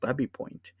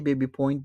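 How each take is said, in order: First: The first syllable has a short 'a' vowel. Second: The first syllable has a long 'ay' vowel. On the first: This is how locals say the name. "colloquially, if you live in the Runnymede area" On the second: This is how an outsider would read the name. "you could say Baby Point"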